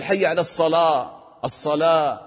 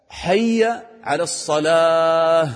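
First: "الصلاة" ending on an open "aa"; dropped final h. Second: Slow chant, "الصلاة" ending in an audible breathed "h"; "الصلاة" stretched, finishing "salaah"; clear final h. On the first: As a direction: leave off the h at the end of "الصلاة". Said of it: "ما تقول". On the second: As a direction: hold "الصلاة" long and release a clear h. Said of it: "بين الهاء". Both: Shown as a demonstration.

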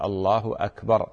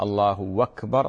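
First: أكبر with a clean glottal stop, "Allah Akber"; the correct form, hamza cut clearly; correct pronunciation. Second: أكبر slurred into "wakber", the hamza dropped; الله أكبر said wrongly as one run-on "lahwakber"; wrong pronunciation. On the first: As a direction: stop on الله, then a firm hamza on أكبر. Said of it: "فإنما يقال". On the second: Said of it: "هذا خطأ". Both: Shown as a demonstration.

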